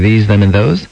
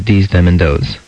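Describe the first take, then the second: First: The th sound is clear and normal. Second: The th sound is distorted with escaping air. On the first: The speaker calls it right. "instead of saying" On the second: The speaker calls it wrong. "you'd say"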